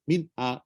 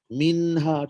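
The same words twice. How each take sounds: First: The n has no nasal hum. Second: The n is held with a nasal hum. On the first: The speaker calls it wrong. "Cuba kalau tak ada dengung. Jadi tak huruf nun tu" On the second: The speaker calls it right. "Jadi dia tetap ada dengung"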